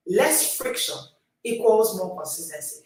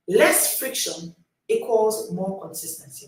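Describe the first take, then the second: First: Said in the usual way. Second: Each word weighed and slow; slow and deliberate. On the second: Shown as a demonstration. Coach to readers, slow for note-taking. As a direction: spell it out slowly so they can write it. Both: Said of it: "Write it down".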